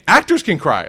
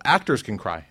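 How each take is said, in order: First: Loud repeat. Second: Said in the usual way. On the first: Acted. Repeated, shouted to crowd.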